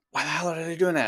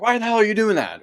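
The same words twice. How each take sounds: First: A touch of mock exasperation, higher; muttered annoyance at what the kid is doing; irritated inner thought. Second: Higher and louder exasperated snap; mock snap at kid. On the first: Parent watching their kid, mildly exasperated inner voice. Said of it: "you're looking at your kid and it's like". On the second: Parent turning on their kid, higher and louder mock snap. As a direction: bark it straight at the kid. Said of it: "And then it's like".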